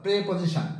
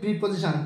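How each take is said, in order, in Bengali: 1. প্রথম শব্দাংশে 'e' স্বরধ্বনি আছে, 'pre'। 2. প্রথম শব্দাংশে 'i' স্বরধ্বনি আছে, 'pri'।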